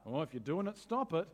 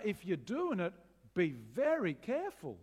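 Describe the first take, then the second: First: Casual brush-off. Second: Earnest warning. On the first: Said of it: "This isn't a". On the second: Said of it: "This is a". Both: Retold or imitated.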